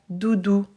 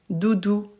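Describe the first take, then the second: The two takes are said the same way.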